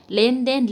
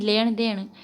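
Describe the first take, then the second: First: Said in the usual way. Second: लेन देन with retroflex ण in both words, leṇ deṇ; retroflex n dialect form. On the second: Shown as a demonstration. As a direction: curl the tongue back for each n in लेन देन. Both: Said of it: "ने के स्थान पर णे".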